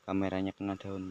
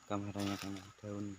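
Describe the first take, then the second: First: Repeated much louder. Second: Said in the usual way. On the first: Real, not acted. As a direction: say it again, loud and clear. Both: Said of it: "Eh, maaf".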